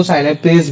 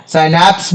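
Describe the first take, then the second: First: साइनापेज said in three syllables, ending in -pez; three-syllable variant. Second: साइनैप्स said in two syllables, ending in -naps; two-syllable variant. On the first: Teacher gives students the other variant name, साइनापेज pronounced as "sai-na-pez". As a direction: say साइनापेज with a vowel between p and the final sibilant. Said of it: "भी बोल देते हैं". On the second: Teacher gives students one variant name, साइनैप्स pronounced as "sai-naps". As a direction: say साइनैप्स short, with the p and s run together. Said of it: "भी बोल देते हैं कुछ लोग उसको".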